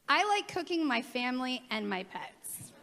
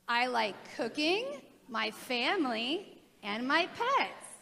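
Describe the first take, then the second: First: It runs on without pauses after cooking. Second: There are pauses after cooking and family.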